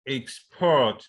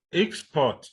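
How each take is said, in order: First: Export as ex-PORT, second syllable strong; stress on second syllable. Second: Export as EX-port, first syllable high; stress on first syllable. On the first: Teacher repeating a stress example, export stressed on PORT. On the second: Teacher contrasting a word pair, export stressed on EX. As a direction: punch the EX in export. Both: Shown as a demonstration. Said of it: "stress that you could have".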